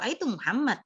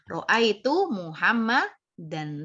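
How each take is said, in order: First: The final case ending is left off. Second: The final -an case ending is fully pronounced. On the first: This is how it is said in ordinary speech. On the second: This is the full grammatical form.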